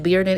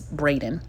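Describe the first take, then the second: First: The name is said like Bearden. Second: The name is said like Braden. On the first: The speaker calls it wrong. "I said the last name wrong earlier" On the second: The speaker calls it right. "It's Braden"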